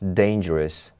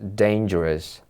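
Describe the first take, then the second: First: The last syllable is reduced to a short 'rus'. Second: The same.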